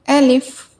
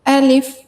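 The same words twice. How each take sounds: Both takes have the same delivery.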